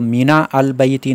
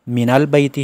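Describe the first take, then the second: First: The article is said apart from the first word. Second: The article is joined onto the first word. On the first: The speaker calls it wrong. "मीना अल बैती नहीं है" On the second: The speaker calls it right. "बल्कि मिनल बैती है"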